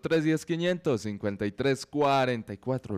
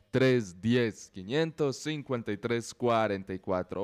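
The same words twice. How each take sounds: First: The number is said at a faster pace. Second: The number is said at a slower pace.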